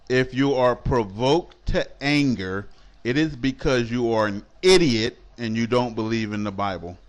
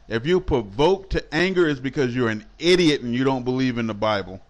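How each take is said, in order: First: It is said slowly and deliberately. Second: It is said at a normal pace.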